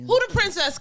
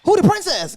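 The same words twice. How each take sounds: First: High sassy rapper quote; [name] voice. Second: High, loud sassy rapper quote; [name] voice. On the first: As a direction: squeak it out with sass. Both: Retold or imitated. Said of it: "Cash doll voice".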